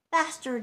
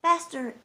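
First: Put-on louder child's shout, urging the horses. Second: Put-on a child's shout, louder and higher. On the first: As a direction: call it out over the sleigh. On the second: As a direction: yell it at the horse to go faster. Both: A narrator's reading. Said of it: "he was shouting".

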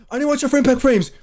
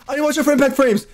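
The two takes are said the same way.

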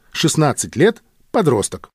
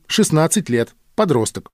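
The two takes are said the same way.

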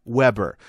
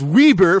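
First: Weber said WEB-er, short e like web; usual Weber. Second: Weber said WEE-ber, long ee; phonetic Weber. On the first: To the blogger, Weber said the familiar WEB-er way. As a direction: Weber rhymes with web-ber, stress on first. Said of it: "it was pronounced Weber". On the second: Correcting himself, Weber said WEE-ber phonetically. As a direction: Weber read literally as WEE-ber, rising. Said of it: "that's pronounced Weber phonetically". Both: Shown as a demonstration.

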